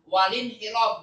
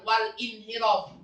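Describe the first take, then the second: First: The glottal stop is dropped, vowel linked to l. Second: The glottal stop is kept before the vowel. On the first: The speaker calls it right. "Dibaca walin hirof karena kalau nakal" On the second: The speaker calls it wrong.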